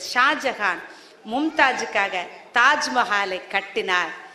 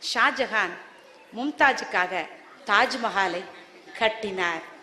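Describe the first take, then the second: First: The child reads it loudly. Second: The child reads it at normal, soft volume.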